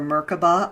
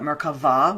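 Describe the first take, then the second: First: The middle consonant is a B sound. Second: The middle consonant is a V sound.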